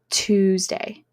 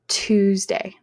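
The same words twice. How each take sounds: First: The word begins with a t sound. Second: The same.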